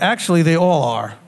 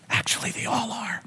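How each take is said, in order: First: It is said at a louder volume. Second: It is said at a quieter volume.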